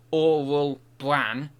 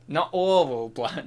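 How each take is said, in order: First: "Oral" said slowly and deliberately, still slightly off; slow careful retry. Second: Says "oral" like 'owil', a slurred slip; mispronounced oral bran. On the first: Streamer to chat, trying again slowly to say it. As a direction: slowly sound out "Oral bran". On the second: Streamer to chat, tongue-tied on a product name. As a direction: trips over "oral" in "oral bran". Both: Real, not acted. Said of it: "I can't even say it now".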